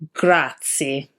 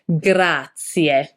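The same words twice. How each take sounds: First: The word ends without a clear Italian 'e'. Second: The word ends in a clear Italian 'e'. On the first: The speaker calls it wrong. "Don't be tempted to say grazie" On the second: The speaker calls it right. "has a E at the end, which need to be pronounced like an Italian E"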